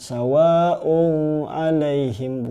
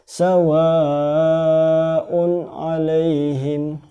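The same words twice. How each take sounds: First: The n sound is blurred into the next word. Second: The n sound is pronounced clearly and distinctly. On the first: The speaker calls it wrong. "bukan sawa'un alaihim" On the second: The speaker calls it right. "tapi harus dibaca jelas"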